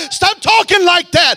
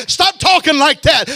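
First: Higher, louder shouted repeat; preaching shout. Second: Preaching. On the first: Preacher repeating his command to the church, shouting. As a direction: hit it harder the second time. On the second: Building preaching climax. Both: Acted.

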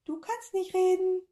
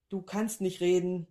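First: Very high and louder squeak; tiny creature mimicking the professor; squeaky echo. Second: Said in the usual way. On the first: A narrator's reading. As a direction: squeak it right back. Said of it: "antwortete die Kugel".

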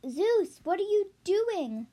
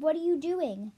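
First: Higher, startled question; shocked. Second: Said in the usual way. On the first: Acted. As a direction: gasp it out in shock. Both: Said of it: "Demeanor asked, shocked".

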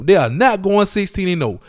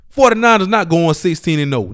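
First: "not" pressed hardest, falling tune at the end; stress on not. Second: Level, even delivery of "Forty-niners not going sixteen and oh"; just state it, no word punched; plain statement. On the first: Podcast host to listeners, insisting with stress on "not". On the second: Podcast host to listeners, stated plainly. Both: Shown as a demonstration.

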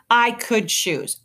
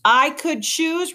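First: Slow, incredulous echo, pitch raised; drawn-out retort, pitched up. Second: Much higher, drawn-out retort; slow, high-pitched, incredulous comeback; indignant retort. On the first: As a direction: throw the words back slowly. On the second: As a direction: repeat it in rising indignation. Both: A narrator's reading. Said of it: "retorted Luxa".

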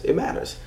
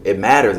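First: It matters whispered softly. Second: Said in the usual way. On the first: Shown as a demonstration. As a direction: breathe it matters without voice. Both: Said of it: "It literally".

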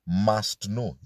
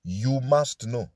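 First: MUST hit, slow falling tune; stress on MUST. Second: MUST slow and weighted, falling; stress on MUST. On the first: Preacher repeating MUST to drive it home. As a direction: land heavy on MUST. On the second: Preacher stressing MUST to his listeners. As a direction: press down hard on MUST. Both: Shown as a demonstration. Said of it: "Must is the key word".

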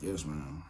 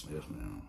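First: Soft, obedient little reply; meek yes ma'am. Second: Much softer, almost swallowed; even meeker yes ma'am. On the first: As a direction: answer grandma softly, giving in. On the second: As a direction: shrink away as you say it. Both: Retold or imitated. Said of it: "I'm like".

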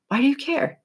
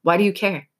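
First: Incredulous repeat. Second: Said in the usual way. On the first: Retold or imitated. Self-talk repeated twice.

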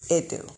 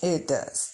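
First: "It do." in casual dialect; dialect grammar. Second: "It does." said carefully in standard grammar; proper English. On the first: Vlogger says "It do." before correcting herself. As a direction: say "It do." loosely, dialect-style. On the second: Correcting "it do" to "It does.". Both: Shown as a demonstration. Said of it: "Let me speak proper English".

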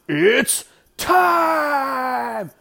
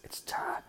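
First: Drawn-out ring announcer shout; Bruce Buffer. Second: Hushed, whispered "It's time"; whispered catchphrase. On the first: Commentator mimicking a fight announcer's catchphrase, long high shout. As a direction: bellow it high, stretching "time" out long. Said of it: "that's where Bruce Buffer stole that shit". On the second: Commentator echoing the fight catchphrase, in a whisper. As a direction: whisper it barely audibly. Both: Retold or imitated.

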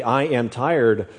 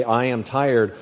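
First: I am tired, drawn out slowly; slow deliberate I am tired. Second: Said in the usual way. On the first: Shown as a demonstration. Preacher slowing the phrase for the congregation. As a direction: stretch I am tired right out. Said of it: "start rephrasing and rethinking".

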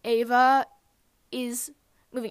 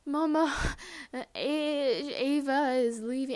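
First: Word by word, with a pause before the end; loud first word, then get the rest out separately; retold careful telling. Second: Higher, halting mock sob; imitated sobbing. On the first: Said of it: "take three deep breaths and then just tell me". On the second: Retelling breaking the news to Mom, sobbing the words. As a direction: act out crying too hard to get the words out. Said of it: "and I could not say".

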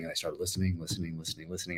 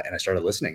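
First: The repeats fade softer and softer into near silence; fading away. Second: Said in the usual way. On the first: Shown as a demonstration. Author remembering endless sample listening, fading softer. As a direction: let each repeat drift away, as if the search drags on for hours.

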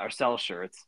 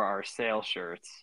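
First: "sell" said with a short e, as intended; self-correction, "sell" with a short e; corrected to sell. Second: "sale" misread before the correction; sale said by mistake. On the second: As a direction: slip of the tongue saying "sale" with a long a, like "sail". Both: Real, not acted.

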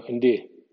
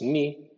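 First: Ndi with an English D between N and I; right ndi. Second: Ni as a bare N I; ni plain, the wrong version. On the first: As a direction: say ndi, slipping a D after the N. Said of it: "N más D inglesa más I". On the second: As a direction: say ni with no D sound. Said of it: "no es N I". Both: Shown as a demonstration.

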